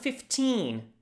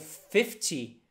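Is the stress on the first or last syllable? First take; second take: last; first. First: The stress is on the last syllable. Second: The stress is on the first syllable. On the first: It means fifteen. The speaker calls it right. "você precisa falar essa ênfase no in" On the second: It sounds like fifty. The speaker calls it wrong. "se você falar it's one fifty ou fifty, vai ficar uma e cinquenta"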